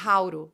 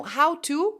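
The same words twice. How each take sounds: First: "hauro", joined with a tapped R; connected speech. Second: "how to" with the T kept; two words, clear T in TO; separate sounds. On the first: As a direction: run it together as "hauro". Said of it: "hora que eu junto, vai ficar". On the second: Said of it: "hora que eu junto". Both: Shown as a demonstration.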